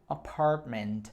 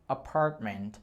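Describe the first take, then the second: The two takes are said the same way.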